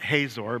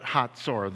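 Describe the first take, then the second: First: The middle consonant is a plain z sound. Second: The middle consonant is a ts sound. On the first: The speaker calls it wrong. "not Hazor" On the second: The speaker calls it right. "it's a ts sound"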